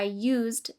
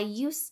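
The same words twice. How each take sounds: First: The word ends with an audible D sound. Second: The word ends without any D sound. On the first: The word is a plain verb on its own. "you pronounce the final D in used" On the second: The word is part of the phrase 'used to'. "the final D sound is dropped"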